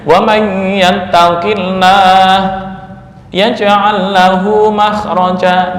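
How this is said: It has a stop in the middle of the phrase.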